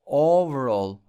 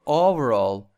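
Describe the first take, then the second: No difference in how they are said.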